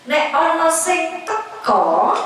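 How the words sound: The last word ends with an 'o' vowel. This is how it is said locally. "Kalau di sini teko"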